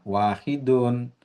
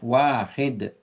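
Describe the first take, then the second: First: The word ends with its full final vowel ending. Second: The word stops short without its final ending. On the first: This is the form used when studying. "kita ucapkan sampai harokat ujungnya" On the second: This is the form used in everyday speech. "diperbolehkan kita mematikan ujungnya"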